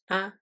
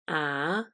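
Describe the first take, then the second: First: It is short and light, without a tone. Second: The pitch rises. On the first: "the neutral sound, which is short and light" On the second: "the second tone, which is a rising sound"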